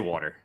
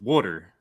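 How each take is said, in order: First: Water is said in the speaker's own milder accent. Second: Water is said in a classic Baltimore accent.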